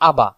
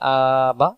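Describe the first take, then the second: First: The vowels are said short and quickly. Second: The vowels are stretched out and drawn long. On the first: The speaker calls it right. "উচ্চারণ খুব দ্রুত গতিতে করতে হবে" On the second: The speaker calls it wrong. "এই জায়গায় যদি আমি বলি আবা, উচ্চারণ ভুল"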